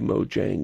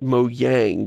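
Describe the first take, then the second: First: The j is said like an English j. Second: The j is said like an English y. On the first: The usual English reading of the spelling. "most English speakers would say Mojang when they saw that" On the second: A joking, fun pronunciation. "I used to jokingly pronounce it Mojang ... Do the J is a Y thing"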